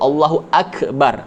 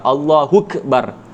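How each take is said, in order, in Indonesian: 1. Hentian glotis sebelum akbar diucapkan. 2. Hentian glotis sebelum akbar dihilangkan. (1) "kena sebut Allahu akbar" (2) "hamzah tu dibuang, tak boleh"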